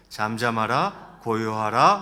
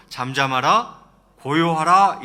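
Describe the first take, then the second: First: Said in the usual way. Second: Loud acted order to the sea; rebuking command. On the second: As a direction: command the waves, firmly and loudly. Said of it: "바다를 향해서는 이렇게 말씀하세요". (바다를 꾸짖듯 크게 명령하며)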